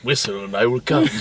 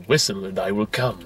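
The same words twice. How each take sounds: First: Mock-creepy android whisper; quoting David. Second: Soft, lower imitation of David the android; lightly voiced creepy android; quoting David. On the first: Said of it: "This went beyond undertone". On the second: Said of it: "shows up behind him and goes".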